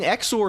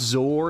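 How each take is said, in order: First: The word begins with a ks sound. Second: The word begins with a z sound. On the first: "that X is not like a Z. ... it's like X as in E X" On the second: "It's pronounced Zor, isn't it?"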